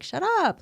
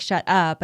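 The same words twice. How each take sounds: First: "shut up" leaping high then falling, playful; playful disbelief. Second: Said in the usual way. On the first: Shown as a demonstration. Explaining to her son the playful tone, high amazed. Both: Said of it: "my tone of voice".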